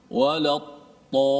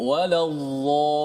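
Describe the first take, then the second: First: The emphatic letter is said as a plain t. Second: The emphatic letter is said as a heavy dh. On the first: "Ada orang sebut dad dengan ta" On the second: "seperti huruf dha"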